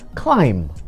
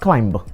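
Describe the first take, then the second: First: The final b is silent. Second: The final b is pronounced. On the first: The speaker calls it right. "the B becomes silent" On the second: The speaker calls it wrong.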